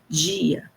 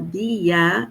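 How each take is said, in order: First: The word begins with a j sound. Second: The word begins with a plain d sound. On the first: "a gente fala dia" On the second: "Em vez de falar dia"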